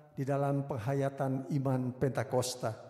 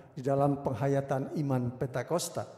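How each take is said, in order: The two takes are said the same way.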